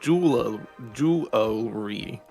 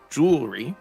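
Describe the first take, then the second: First: The word is said with three syllables. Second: The word is said with two syllables. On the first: "with three syllables" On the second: "with two syllables"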